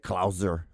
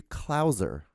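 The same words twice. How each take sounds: First: Klauser said slowly the German way, with a hard S sound; German-style Klauser, slow and careful; German pronunciation. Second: Klauser said slowly the English way, softened S like a Z; softened English Klauser, drawn out; English pronunciation. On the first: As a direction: say Klauser as a German would, crisp S. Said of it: "That's how you actually, I think that's how you say it in German". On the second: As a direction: say Klauser the American way with a buzzing Z. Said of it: "but we say it in English ... kinda softens ... a Z instead of a S".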